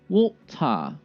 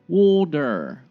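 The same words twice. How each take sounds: First: The t is a crisp, clear t sound. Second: The t becomes a soft d sound. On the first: "British style"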